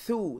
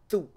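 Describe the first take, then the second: First: The first sound is light with a puff of air. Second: The first sound is heavy and strong. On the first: The speaker calls it right. "There's a thrust of air when pronouncing the tha" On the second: The speaker calls it wrong. "it's not a very strong letter in the sense it's not"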